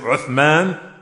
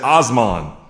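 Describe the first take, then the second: First: It starts with u and has a th sound. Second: It starts with o and has an s sound. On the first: "Instead of saying Uthman" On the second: "Americans, they mess it up all together"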